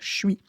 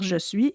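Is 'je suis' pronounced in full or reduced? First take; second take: reduced; full. First: The two words are squeezed into one reduced syllable. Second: Both syllables are pronounced fully and distinctly. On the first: The situation is casual. "et pas" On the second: The situation is formal. "dans un contexte plus formel, on va plutôt dire"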